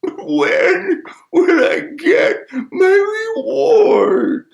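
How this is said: It is said in a sad tone.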